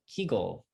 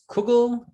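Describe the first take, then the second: First: The first vowel is an 'ee' sound. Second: The first vowel is an 'oo' sound. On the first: "or kegel?" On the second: "Do you pronounce it as kugel"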